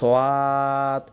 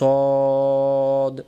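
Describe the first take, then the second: First: It starts with an s followed by a w-glide. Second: It starts with a plain s sound, no w-glide. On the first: The speaker calls it wrong. "তখন মাখরাজের ভুল হয়ে যায়" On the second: The speaker calls it right. "মুখটা গোল করে বলতে হয় সদ"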